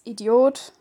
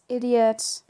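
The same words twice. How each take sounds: First: It is said with a German pronunciation. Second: It is said with an English pronunciation. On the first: "which in German is idiot" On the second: "Then there's idiot"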